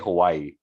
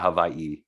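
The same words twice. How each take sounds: First: Hawaii is said the mainland, non-islander way. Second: Hawaii is said the local islander way. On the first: This is how an outsider says it. "Like I say Hawaii" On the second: This is how locals say it. "or how how you guys say it"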